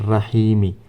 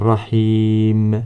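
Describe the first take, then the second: First: The word ends with a short i vowel. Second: The word ends on the m sound. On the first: The reading continues without a stop. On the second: The reading stops at this word.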